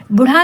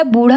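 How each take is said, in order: First: बूढ़ा with a short u; wrong बूढ़ा. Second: बूढ़ा with a long oo; correct बूढ़ा. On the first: Teacher shows the misspelling, बूढ़ा with short u. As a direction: clip बूढ़ा to "budha". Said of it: "नहीं होता". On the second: Teacher gives the correct word, बूढ़ा with long oo. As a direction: stretch the first vowel of बूढ़ा. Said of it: "होता है". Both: Shown as a demonstration.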